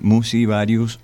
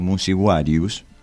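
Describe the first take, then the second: First: It is said in a later Latin pronunciation. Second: It is said in the ancient Latin pronunciation.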